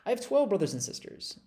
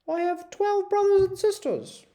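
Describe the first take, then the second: First: It is said in the speaker's regular accent. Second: It is said in a put-on English accent.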